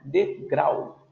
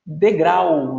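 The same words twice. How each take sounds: First: Said in the usual way. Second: Degrau said louder, a fall on the final -grau; emphatic citation. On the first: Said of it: "terminada em ditongo". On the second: Shown as a demonstration. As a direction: announce Degrau loudly to the class. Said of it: "Olha lá, oxítona".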